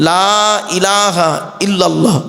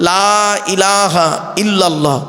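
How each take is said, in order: The two takes are said the same way.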